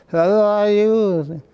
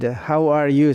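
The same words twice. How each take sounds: First: "How are you" slurred, high and drawn out; improper articulation. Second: Said in the usual way. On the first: Shown as a demonstration. Showing he couldn't say it properly, "How are you" slurred high and slow. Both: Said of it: "I couldn't to say properly".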